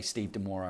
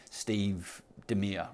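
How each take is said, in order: First: "Demora" ending in an open "-ora"; name example. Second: "Demir" said slowly, ending in "-meer"; mispronounced name. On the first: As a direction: say "Demora" with stress on MOR and an open final "a". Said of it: "So sometimes, like, you know". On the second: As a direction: slowly get the name wrong as "Demir", two syllables. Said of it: "I got your name wrong". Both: Shown as a demonstration.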